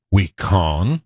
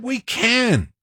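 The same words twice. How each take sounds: First: "con" said with a broad ah vowel, like con; "We con." rhymes with on; mock mispronounced "con"; wrong vowel demo. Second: "can" said with a flat a, as in can; "We can." with the short a of cat; right vowel demo. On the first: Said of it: "He didn't say". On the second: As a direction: clear "can" with a bright flat a. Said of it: "He said". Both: Shown as a demonstration.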